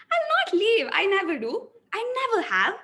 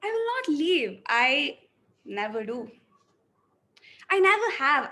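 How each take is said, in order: First: Higher and louder, full of drive; energetic, raised voice. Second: Hopeless, resigned. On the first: Acting student's energetic take of the same lines. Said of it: "So I'll go with the second one". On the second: Acting student's depressed take of the lines. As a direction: say it like you've given up. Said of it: "let me go with the first one". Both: Shown as a demonstration.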